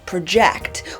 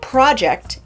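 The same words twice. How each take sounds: First: The stress is on the second syllable. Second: The stress is on the first syllable. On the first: It is the verb. The speaker calls it wrong. "the musical stress falls on the second syllable and we accidentally end up with the verb" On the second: It is the noun. The speaker calls it right. "as in the noun"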